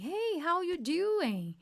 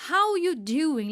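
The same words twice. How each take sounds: First: Slow, easy "Hey, how you doing" with the "are" gone; natural casual greeting. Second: "How you doing" with no "are", said slow and loud; dropped are. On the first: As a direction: greet a friend casually and fluently. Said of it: "Você já fica mais natural". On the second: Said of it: "esse are ... praticamente suprimido". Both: Shown as a demonstration.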